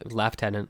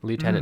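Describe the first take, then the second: First: It is said with the British pronunciation. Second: It is said with the American pronunciation. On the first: "that is how it's pronounced. Is Lieutenant" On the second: "Lieutenant is American"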